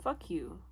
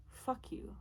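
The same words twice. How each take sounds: First: Said in the usual way. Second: Bitter whispered curse, much softer; breathed out in a venomous whisper. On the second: Real, not acted. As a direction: hiss it under the breath. Repeats curse, second whispered.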